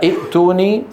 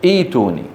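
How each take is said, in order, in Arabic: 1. تأتي همزة القطع بعد الحركة القصيرة الأولى. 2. الحركة الأولى طويلة، دون همزة قطع. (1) "عند البدء أصلها ائتوني" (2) "ثم تصير إيش؟"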